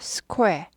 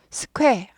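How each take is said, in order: First: A short, quick 'oo' sound follows the k. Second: The k goes straight into the vowel. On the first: The speaker calls it right. "쾌를 빨리 해요" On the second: The speaker calls it wrong. "스쾌 아니고 스퀘"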